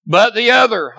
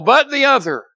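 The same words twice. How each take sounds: First: Said in the usual way. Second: "but the other" lifted high and emphatic; stress on other. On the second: Shown as a demonstration. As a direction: hit "other" hard, higher. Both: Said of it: "I have that underlined".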